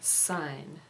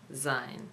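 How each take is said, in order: First: The word begins with an s sound. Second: The word begins with a z sound. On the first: The speaker calls it right. "Syne is pronounced like the English word sign" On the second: The speaker calls it wrong. "not Zine, as many people pronounce it"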